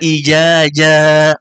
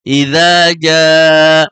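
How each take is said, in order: First: A 'j' sound replaces the 'dz' sound. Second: A clear 'dz' sound is heard in the first word. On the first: The speaker calls it wrong. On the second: The speaker calls it right.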